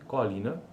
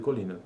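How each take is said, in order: First: The first vowel is open, like 'có'. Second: The first vowel is closed, like 'cô'. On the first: This is how the Northeast region says it. "a abertura seria có, ó" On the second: This is how the Southeast region says it. "Sistematicamente fechada na região sudeste"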